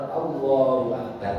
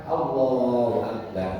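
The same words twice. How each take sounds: No difference in how they are said.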